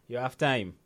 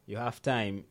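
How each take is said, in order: Both takes have the same delivery.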